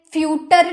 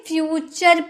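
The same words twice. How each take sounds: First: फ्यूटर with a hard "t", as fyoo-tur; फ्यूटर ending "tur" instead of "chur"; wrong T pronunciation. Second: फ्यूचर with "ch", as fyoo-chur; फ्यूचर ending in a clear "chur"; correct CH pronunciation. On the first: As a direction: say फ्यूटर as the misreading of future. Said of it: "फ्यूटर नहीं पढ़ेंगे". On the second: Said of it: "फ्यूचर पढ़ेंगे". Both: Shown as a demonstration.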